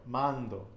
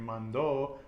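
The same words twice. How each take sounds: First: "mando" stressed on "man"; penultimate-syllable stress. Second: "mando" wrongly stressed on the last syllable "do"; wrong final stress. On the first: Teacher showing student the stress rule, penultimate stress on "mando". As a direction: punch "man" in "mando", let "do" fall. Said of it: "The penultimate syllable". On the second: Teacher showing what not to say, final stress on "mando". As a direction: lean on "do" in "mando". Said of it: "we're not saying mando". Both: Shown as a demonstration.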